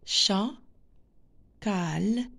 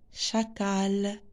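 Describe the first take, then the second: First: The word is split with a pause between syllables. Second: The word is said smoothly in one go.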